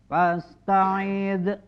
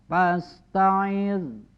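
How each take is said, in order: First: The final d is released with a bounce. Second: The final d is held without a bounce. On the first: The speaker calls it wrong. "Dal sini tidak boleh dikolkolahkan, tidak boleh dibaca fasta'id" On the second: The speaker calls it right. "Jadi agak sedikit ditahan"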